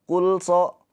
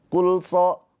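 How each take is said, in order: No difference in how they are said.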